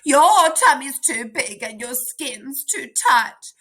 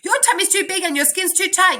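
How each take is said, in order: First: The line is read more slowly, following punctuation. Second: The line is read quickly, ignoring punctuation. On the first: The speaker calls it right. "I'm going to pay attention to the punctuation" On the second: The speaker calls it wrong. "I think I was reading too fast then"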